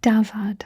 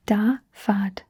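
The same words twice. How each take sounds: First: Said in the usual way. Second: "Davad" slowly in two parts, da - vad; syllable-by-syllable demo. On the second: Shown as a demonstration. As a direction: model "Davad" with a gap between syllables. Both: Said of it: "let's practice saying it first".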